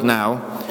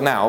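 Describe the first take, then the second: First: Said in the usual way. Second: "now" said as the key word, leaned on firmly; stress on now. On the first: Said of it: "notice that little word". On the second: Shown as a demonstration. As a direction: hit the word "now" hard. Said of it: "I want to emphasize that word".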